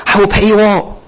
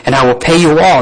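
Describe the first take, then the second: First: High, laughing mock promise; mock plea with a laugh. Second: Said in the usual way. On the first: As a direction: scoff at the empty promise through a chuckle. Repeats plea mockingly, laughing.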